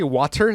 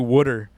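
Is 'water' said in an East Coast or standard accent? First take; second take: standard; East Coast. First: Water is said with a standard pronunciation. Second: Water is said like 'wooder', East Coast style. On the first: This is not how those people say it. "They don't say water" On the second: This is how those people say it. "They say water. Like W U D D U E R"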